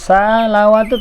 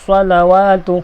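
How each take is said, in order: First: It starts with a light, plain s sound. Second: It starts with a heavy, emphatic s sound. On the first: The speaker calls it wrong. "salawatu tak betul" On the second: The speaker calls it right. "Dan misalnya mubarakatus salawatu"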